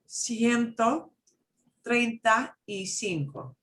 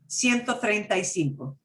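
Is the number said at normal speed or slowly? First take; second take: slowly; normal speed. First: The number is said slowly and carefully. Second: The number is said quickly at normal speed. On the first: "I'm going to say it one more time slowly" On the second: "And now I'm going to say it normal speed"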